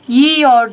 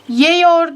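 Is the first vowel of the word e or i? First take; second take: i; e. First: The first vowel is an i. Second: The first vowel is an e. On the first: The speaker calls it right. "E i'ye dönüştü" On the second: The speaker calls it wrong. "Yiyor değil"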